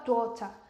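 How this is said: It is said in a British English accent. "uma vez que você vai conversar com um britânico, ele fala"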